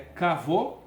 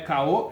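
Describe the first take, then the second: First: A clear v sound joins the two vowels. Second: The middle consonant is dropped, leaving only vowels. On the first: The speaker calls it right. "é Cavô" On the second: The speaker calls it wrong. "não é Caô"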